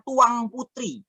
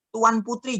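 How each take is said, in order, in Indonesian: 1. Kata pertama berakhir dengan bunyi 'ng'. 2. Kata pertama berakhir dengan bunyi 'n'.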